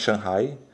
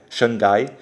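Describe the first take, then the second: First: The name is said with English-like sounds. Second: The name is said with Portuguese sounds. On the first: This is the correct form of the name. The speaker calls it right. "mas o certo é Shanghai" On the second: This is how Brazilians commonly say it. The speaker calls it wrong. "a gente fala Xangai"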